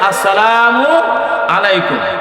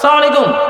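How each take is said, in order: First: The opening 'as' syllable is fully pronounced. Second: The opening 'as' syllable is dropped. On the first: It wishes peace upon the listener. The speaker calls it right. "শব্দ হবে আসসালামু আলাইকুম" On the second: It wishes wrath upon the listener. The speaker calls it wrong. "সালাম উচ্চারণ হয় নাই"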